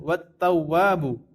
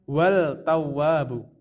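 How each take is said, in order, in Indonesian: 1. Bunyi L menyatu dengan T yang ganda. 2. Bunyi L terdengar jelas sebelum T. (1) "Maka cara membacanya adalah wat tawwabu" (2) "bukan wal tawwabu"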